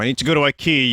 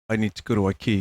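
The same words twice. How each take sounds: First: It is screamed at full volume. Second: It is said in a dull, muted tone.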